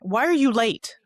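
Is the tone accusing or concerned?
accusing. The question sounds harsh and accusing. The speaker is blaming the listener for being late. "that's one way"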